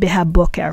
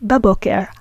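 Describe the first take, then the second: First: The prefix is two full syllables, be-ha. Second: The prefix is merged into one syllable, ba. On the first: The speaker calls it wrong. "we don't say behaboker" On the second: The speaker calls it right. "we say baboker"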